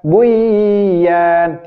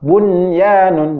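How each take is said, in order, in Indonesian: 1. Bunyi n melebur hilang ke dalam y. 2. Bunyi n sebelum y jelas diucapkan. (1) "bukan buyan, tidak" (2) "maka dibaca dengan izhar mutlak"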